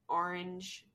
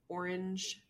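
First: It is said with a New Jersey accent. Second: It is said in a standard accent. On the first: "I think that's like a Jersey thing mostly" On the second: "instead of orange"

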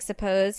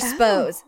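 First: The word has two full syllables. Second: The first vowel is dropped, leaving one syllable. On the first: "instead of saying suppose" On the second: "or spose. That's what he would always say"

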